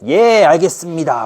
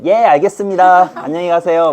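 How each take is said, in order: First: Slow, cheerful obliging yes; clueless minister. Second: Clueless student. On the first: Minister cluelessly accepting the king's refusal. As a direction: agree slowly without reading the mood. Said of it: "눈치가 더럽게 없는 거고". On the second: Student cheerfully letting the teacher quit. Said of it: "또 찍히잖아요". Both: Acted.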